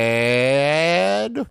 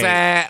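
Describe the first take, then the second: First: The word is drawn out long. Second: The word is said short.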